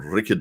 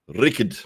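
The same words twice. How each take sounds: First: The R is said lightly, barely rolled. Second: The R is strongly rolled like an engine. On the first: The speaker calls it wrong. "you're not rolling the R enough" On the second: The speaker calls it right. "It's got to sound like, what do you say, a lawnmower that that's trying to start"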